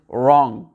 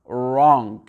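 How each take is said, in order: Both takes have the same delivery.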